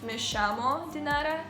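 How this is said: The 'll' is said as a 'sh' sound. "people in Argentina say a lot more sh sounds"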